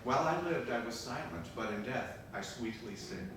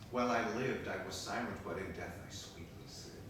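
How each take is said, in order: First: It is said louder. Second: It is said fairly quietly.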